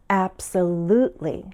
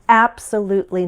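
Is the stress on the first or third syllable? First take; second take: third; first. First: The stress is on the third syllable. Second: The stress is on the first syllable. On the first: "with stress on the third syllable" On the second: "shift the stress to the first, probably for emphasis"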